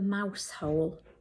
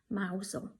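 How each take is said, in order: First: It is said as two separate words. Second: It is run together as one short word.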